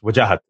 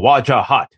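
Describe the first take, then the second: First: The name is said fast and clipped. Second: The name is said in an American way.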